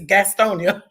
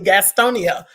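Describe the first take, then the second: First: The name is said in a relaxed local form. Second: The name is said in its standard careful form. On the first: This is how the speaker actually says it. "I've never said Gastonia. It's Gastonia" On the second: This is the proper form of the name. "most people say it properly"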